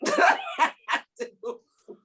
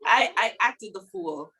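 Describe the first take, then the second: First: Laughing. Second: Said in the usual way. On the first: Shown as a demonstration.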